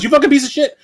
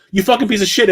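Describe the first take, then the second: First: "You fucking piece of shit" yelled much higher in a mock cartoon voice; imitating the game voice. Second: "You fucking piece of shit" rushed together with no breaks between words; run together as one word. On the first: Imitating the falling enemy's curse for viewers, high mock yell. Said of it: "She goes". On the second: Retold or imitated. Retelling a game enemy's line as one run-together word. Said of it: "as if it's one word".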